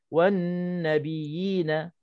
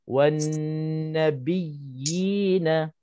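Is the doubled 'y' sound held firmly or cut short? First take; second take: short; held. First: The doubled y sound is cut short. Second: The doubled y sound is held firmly. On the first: The speaker calls it wrong. "jangan kita sebut wan nabiyina nabiyina ... tamkin tak ada" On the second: The speaker calls it right. "kita kena sebut macam ni"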